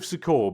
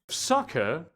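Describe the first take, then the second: First: The word is said in an altered pronunciation. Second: The word is said in its standard pronunciation. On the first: This version avoids sounding like an insult. "I'm calling it the seat of Sukkot because it it doesn't sound terrible" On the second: This is how the name is normally pronounced. "I know it's that's not that's the correct pronunciation of it"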